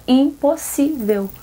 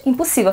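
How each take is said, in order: First: "impossível" drawn out slowly, syllable by syllable; emphatic refusal. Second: Said in the usual way. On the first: Retold or imitated. Seamstress turning down a three-day dress order, "impossível" slow and emphatic. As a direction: stretch every syllable of "impossível".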